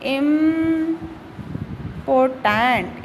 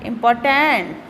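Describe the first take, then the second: First: important drawn out, broken into syllables; sounded out slowly. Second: Said in the usual way. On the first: Shown as a demonstration. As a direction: hold the first syllable of important, then the rest slowly. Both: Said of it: "इसका जो pronunciation है वो लिख के देखते हैं".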